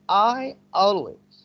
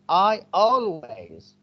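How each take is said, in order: No difference in how they are said.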